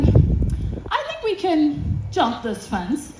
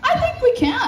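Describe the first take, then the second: First: Slow, drawn-out imitated proposal; sly suggestion. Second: Much higher-pitched, giddy agreement; retold high, tempted reply; eager agreement. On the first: Companion proposes jumping a fence, slow and tempting. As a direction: float a daring idea slowly. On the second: Woman agrees with companion's fence plan, high and eager.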